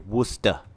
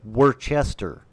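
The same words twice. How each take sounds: First: The name is said in a shortened, clipped form. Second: The name is said fully, as it is spelled. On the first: This is how people from the region say it. "But people say Worcester" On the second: This is how a reader of the sign would say it. "it looks like Worcester"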